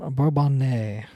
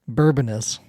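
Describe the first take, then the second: First: The name is said with a French pronunciation. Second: The name is said with an English pronunciation. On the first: "what's the French pronunciation of it? And it's" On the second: "they pronounced it as the English version, which was like"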